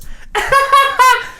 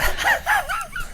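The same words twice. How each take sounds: First: Very high, rapid mock laugh; fake second laugh. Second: Breathy, high and soft huffing laugh; huffy laugh. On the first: Showing friends Emily's new laugh, high put-on cackle. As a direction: imitate a new laugh being tried out, pitched way up. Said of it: "it sounded like this". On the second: Retold or imitated. Imitating Emily's original laugh, huffy and breathy. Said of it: "like a very huffy laugh".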